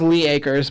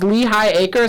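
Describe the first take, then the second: First: The first word has one syllable. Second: The first word has two syllables. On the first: The speaker calls it wrong. "I always thought it was Lee Acres" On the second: The speaker calls it right. "It's Lehigh Acres"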